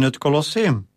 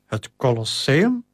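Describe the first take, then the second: First: Said in the usual way. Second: "Het Colosseum?" asked back with a rising, doubtful tune; a mild disbelieving echo; surprised echo. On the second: A narrator's reading. Maximus echoes in disbelief.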